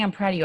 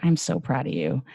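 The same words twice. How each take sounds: First: High-pitched, lightly patronising praise; condescending praise. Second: Level, heartfelt praise at usual pitch; direct, sincere. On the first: Acted. Speaker quoting praise that can feel belittling, condescending. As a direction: hand down praise from above. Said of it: "it can feel so condescending". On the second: Shown as a demonstration. Speaker showing praise delivered with direct love, sincere. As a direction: say it straight to them, meaning it. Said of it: "look 'em in the eye".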